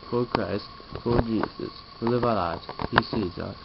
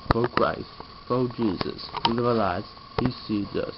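Both takes have the same delivery.

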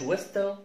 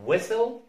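First: ويستل with a clear T, "wes-tel"; ويستل, the silent T sounded out; wrongly sounded T. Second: ويسل said "wessel", no T; ويسل with the T left silent; correct silent T. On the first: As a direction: mispronounce ويستل with the T voiced after S. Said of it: "ما اسمهاش ويستل". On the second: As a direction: say ويسل straight from S to L. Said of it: "اسمها ويسل". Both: Shown as a demonstration.

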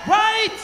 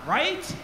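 First: Much higher, insistent shouted check; rousing shout. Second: Said in the usual way. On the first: Real, not acted. Bandleader pressing the festival crowd to agree, rousing shout. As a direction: shout it up high to demand an answer. Repeats louder to rouse crowd.

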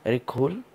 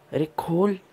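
First: Said in the usual way. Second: Higher pitched, impatient repeat of खोल with a rising end; insistent urging. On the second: Real, not acted. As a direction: push harder, losing patience. Urging the game villager again. (ऊँची आवाज़ में झुंझलाकर खोलने को कहना)

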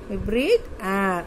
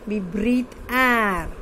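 First: Said in the usual way. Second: Slow, deliberate, word by word; slow dictation. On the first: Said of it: "teacher repeats the sentence". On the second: Shown as a demonstration. Teacher reads a textbook sentence aloud to pupils, slow dictation. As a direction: read it slowly so children can follow. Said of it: "teacher dictates a sentence twice".

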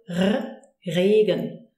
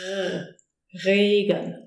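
First: Slow "Regen" with a lightly rolled German R; almost rolled R. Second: "Regen" with a drawn-out friction R from the throat; throaty German R. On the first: Teacher showing one way the German R comes out, almost rolled. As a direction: hold the R, then "Regen", nearly rolled. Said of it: "kind of almost rolled way". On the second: Teacher showing the other way the R sounds, throaty R. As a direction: rasp the R alone, then start "Regen" with it. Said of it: "sometimes it sounds more like this". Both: Shown as a demonstration.

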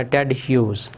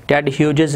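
First: "ह्यूज" as one syllable, the g silent; correct pronunciation. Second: "ह्यूजेस" with the g sounded and an extra syllable; wrong pronunciation. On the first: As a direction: say "ह्यूज" ending straight on z, falling tune. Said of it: "जो जी की sound है वो आपने pronounce नहीं". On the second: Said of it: "नहीं कहना". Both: Shown as a demonstration.

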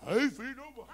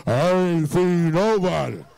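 First: Said in the usual way. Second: Very low, loud, drawn-out imitation; deeper voice. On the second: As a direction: drop it deep and slow, hammed-up denial. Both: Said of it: "She done got deeper".

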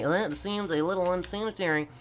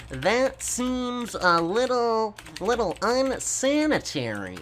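First: Said in the usual way. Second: Slowly, higher, dragging each word; stretched typing voice; slow stretched-out dictation. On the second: Shown as a demonstration. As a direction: spell it out slowly as he types.

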